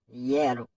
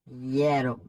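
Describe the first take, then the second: First: The word ends in a vowel sound. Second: The same.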